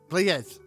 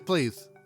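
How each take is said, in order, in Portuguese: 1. O E do final de «players» é pronunciado claramente. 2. O E do final de «players» é quase mudo. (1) "ela ensinou que aquilo é, tem de ser tipo as" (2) "o E é mais mudo do que o que eu aprendi"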